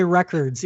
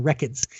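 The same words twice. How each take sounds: First: Said in the usual way. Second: "records" in Boston accent, R dropped, lower and softer. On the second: Shown as a demonstration. Host showing co-host Boston speech, Boston accent. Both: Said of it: "that's how you say records in Boston".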